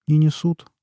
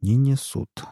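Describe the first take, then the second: First: A touch guilty, mumbled excuse; mildly sheepish underling; lightly guilty "Не несут", said apologetically. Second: Mildly mocking echo with "несут" rising; a hint of sarcastic echo of "Не несут"; mocking repeat. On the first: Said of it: "виновато сказал Масул". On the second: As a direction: throw "Не несут" back at him, lightly scornful. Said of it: "повторил Нунан". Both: A narrator's reading.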